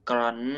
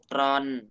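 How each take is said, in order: First: The syllable has a high tone. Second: The syllable has a falling tone. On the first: "ไม้ตรี" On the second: "ไม้โท"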